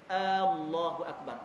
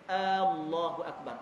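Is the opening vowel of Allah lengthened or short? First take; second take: lengthened; lengthened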